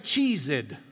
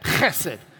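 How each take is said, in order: First: It starts with a plain English ch sound. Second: It starts with a rasping sound from the throat. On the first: The speaker calls it wrong. "Don't say cheesed" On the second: The speaker calls it right. "The CH is like you want to spit"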